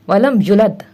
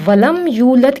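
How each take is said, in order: First: The vowel after the y is cut short. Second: The vowel after the y is held long. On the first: The speaker calls it wrong. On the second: The speaker calls it right.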